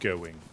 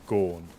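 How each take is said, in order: First: The word ends in a full 'ing' sound. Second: The word ends in a plain 'n' sound. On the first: "instead of going" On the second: "I get lazy"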